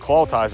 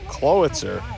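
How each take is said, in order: First: The t sound comes before the i sound. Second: The i sound comes before the t sound. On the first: The speaker calls it wrong. "I had the I and T backwards in my mind" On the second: The speaker calls it right. "Then I looked at the spelling. I was like, oh, it is like"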